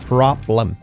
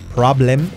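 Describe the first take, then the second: First: The second-syllable vowel is nearly dropped. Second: The second-syllable vowel is fully pronounced. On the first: The speaker calls it right. "la L es fuerte y prácticamente la E se la come" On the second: The speaker calls it wrong. "No es problem"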